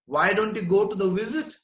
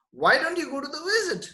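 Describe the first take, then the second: First: Said in the usual way. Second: Owl's question, pitched up high; the owl's advice, raised for emphasis; higher repeat. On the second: Shown as a demonstration. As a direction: lift the whole question much higher.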